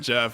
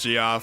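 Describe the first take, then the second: First: The name is said as one syllable. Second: The name is said as two syllables. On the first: The speaker calls it wrong. "It's obviously not Jeff" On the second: The speaker calls it right. "if that's your name, that's how you say it"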